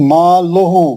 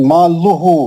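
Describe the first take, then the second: Both takes have the same delivery.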